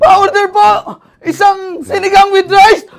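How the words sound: It is shouted in a frightened panic.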